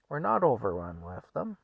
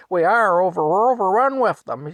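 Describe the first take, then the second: First: Offhand, level-voiced denial; unbothered, at an easy volume; nonchalant husband. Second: High, very loud outburst; worked-up shouting; yelling wife. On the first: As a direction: brush off her complaint calmly. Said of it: "just very nonchalantly". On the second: Retold or imitated. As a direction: holler it at your husband in exasperation. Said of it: "she yells at Frank".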